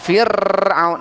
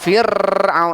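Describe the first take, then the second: First: The r has a long, heavy trill. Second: The same.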